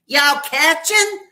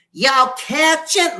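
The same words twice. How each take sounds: First: Very high, slow, loud squeak; loud squeaky voice. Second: Very high, slow, loud squeal; loud squeaky shout. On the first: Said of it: "he has a loud, squeaky voice". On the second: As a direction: belt it out in a squeaky voice. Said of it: "Like, really loud". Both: Retold or imitated.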